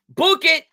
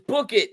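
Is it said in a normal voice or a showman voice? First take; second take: showman; normal. First: It is said in a showy entertainer voice. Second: It is said in a plain reading voice.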